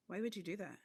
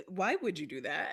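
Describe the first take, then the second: First: Softer, falling question; understated disapproval, dropping at the end; unintentionally judgmental. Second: Really want the answer; sincerely curious. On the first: Face betraying the speaker, quietly judgmental question. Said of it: "my face does the same thing". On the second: Explaining what was actually meant, curious rising question. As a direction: open question rising at the end. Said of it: "I actually mean, like". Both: Retold or imitated.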